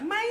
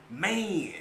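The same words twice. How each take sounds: First: Imitated New York "man"; mimicked New York accent. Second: Texas drawn-out "man"; Texas-accented man; Texas slang. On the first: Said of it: "She got this New York accent". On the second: Shown as a demonstration. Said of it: "how we say that".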